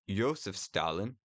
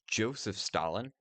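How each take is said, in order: First: The first name has the Russian pronunciation, Iosif. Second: The first name has the English pronunciation, Joseph. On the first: "more accurate to the Russian pronunciation" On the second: "the standard English pronunciation of Joseph Stalin"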